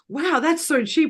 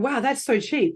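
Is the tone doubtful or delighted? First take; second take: delighted; doubtful. First: It sounds delighted and sparkly. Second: It sounds doubtful and suspicious.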